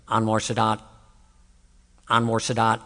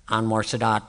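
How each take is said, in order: First: Low, dazed repetition of the name; a lightly voiced confused man chanting; imitating a patient on the gurney. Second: Low, dazed chant of the name; a lightly voiced confused man repeating a name; imitating a patient on the gurney. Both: Preacher imitating a troubled man on a gurney, lower dazed chant. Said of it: "This is exactly what he was doing".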